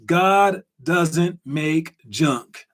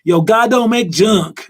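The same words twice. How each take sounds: First: Slow, word-by-word delivery; quote of the day. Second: Louder, higher Black American accent, drawn out. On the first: Host announces the quote of the day, slow and deliberate. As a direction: spell it out slowly, one word at a time. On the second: Host imitates older Black people's saying, Black American accent. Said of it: "That's my black accent". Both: Shown as a demonstration.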